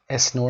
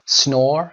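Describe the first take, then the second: First: A short vowel is added before the s sound. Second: The word starts directly with the s sound. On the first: The speaker calls it wrong. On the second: The speaker calls it right.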